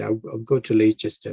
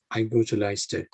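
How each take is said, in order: First: "Leicester" as LAY-chester, three syllables; "Leicester" with a full "chester" ending; spelling pronunciation. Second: "Leicester" as LIE-ster, middle dropped; "Leicester" pronounced roughly "Lyster"; two-syllable Leicester. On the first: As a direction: misread "Leicester" as "Laychester". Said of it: "rather than Leicester". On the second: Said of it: "Leicester is pronounced as Leicester". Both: Shown as a demonstration.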